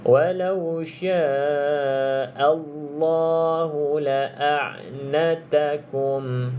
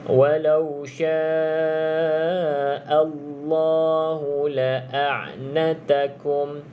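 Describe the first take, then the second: Both takes have the same delivery.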